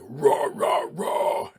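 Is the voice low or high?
low. It is said in a low, authoritative voice.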